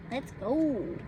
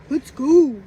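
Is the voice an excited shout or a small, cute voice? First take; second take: small voice; excited shout. First: It is said in a small, cute voice. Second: It is said as an excited cheer. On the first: A little girl is saying it. "I could hear her little voice" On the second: A boy is celebrating a goal. "like when he's excited"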